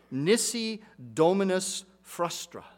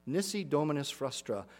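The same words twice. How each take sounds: First: "Nisi Dominus Frustra" said slowly, each syllable placed carefully, NIS-i DOM-i-nus FRUS-tra; careful Latin pronunciation. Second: Said in the usual way. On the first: Shown as a demonstration. Pastor carefully pronouncing the Latin for the congregation, slow and deliberate. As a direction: sound out "Nisi Dominus Frustra" slowly, like reading an old inscription. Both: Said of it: "I'll try to pronounce it".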